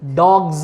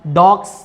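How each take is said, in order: First: The word ends with a buzzing z sound. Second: The word ends with a hissing s sound. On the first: The speaker calls it right. "ये एस आपका जेड कैसे बन गया" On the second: The speaker calls it wrong. "डॉग्स नहीं होता है"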